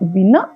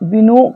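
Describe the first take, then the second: First: The second syllable has an 'a' vowel. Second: The second syllable has an 'o' vowel. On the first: The speaker calls it right. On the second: The speaker calls it wrong. "వినో కాదు"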